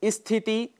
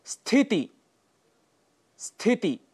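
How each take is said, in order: First: स्थिति said as "isthiti"; mispronunciation with added i. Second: स्थिति starting straight on sth; correct pronunciation. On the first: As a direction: put a short i before स्थिति. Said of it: "जो गलत है". (स्थिति को इस्थिति कहना, गलत उच्चारण) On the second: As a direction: model स्थिति with no leading vowel. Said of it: "यह इसका शुद्ध उच्चारण है". (स्थिति का शुद्ध उच्चारण) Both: Shown as a demonstration.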